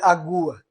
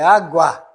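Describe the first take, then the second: First: The u vowel sounds stronger. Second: The a vowel sounds stronger. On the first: The speaker calls it wrong. "Imagine falou assim" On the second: The speaker calls it right. "O A é mais forte"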